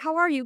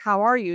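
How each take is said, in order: First: High-pitched, breezy greeting; superficial small talk. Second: Louder, at a natural pitch; genuine question. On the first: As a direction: toss it out as polite small talk. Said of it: "quirky way of starting with the superficial". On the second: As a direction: ask it as if wanting a real answer. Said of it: "they just really talk about their genuine". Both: Acted.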